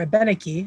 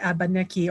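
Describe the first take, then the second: First: It is said with an Abenaki/French-style pronunciation. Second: It is said with an English-style pronunciation. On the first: The speaker calls it right. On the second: The speaker calls it wrong.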